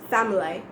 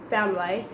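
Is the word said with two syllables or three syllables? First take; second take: two syllables; two syllables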